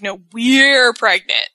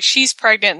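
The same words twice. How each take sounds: First: "we're" stretched out long and loud; slow retold correction punching "we're"; stress on WE'RE. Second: Said in the usual way. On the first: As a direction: correct her by leaning hard on "we're". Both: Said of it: "Miz corrects her and says that".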